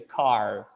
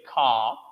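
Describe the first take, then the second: First: The final R sound is clearly pronounced. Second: The final R sound is not pronounced. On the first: "you have the rhotic sound" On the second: "you don't have the sound, the rhotic sound"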